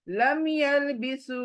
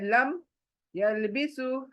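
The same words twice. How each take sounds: First: The two words are joined quickly without a break. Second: The two words are said separately with a break. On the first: The speaker calls it right. "दोनों को ज्वाइन करके जल्दी से पढ़ना है" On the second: The speaker calls it wrong. "ऐसा अलग अलग नहीं पढ़ना है"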